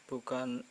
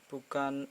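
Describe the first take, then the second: No difference in how they are said.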